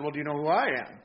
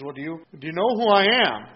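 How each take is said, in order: First: Said in the usual way. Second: A self-important, louder retold demand; lightly mock the governor flaunting his status; pulling rank. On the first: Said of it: "much to his surprise". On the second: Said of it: "Pulling a little rank here".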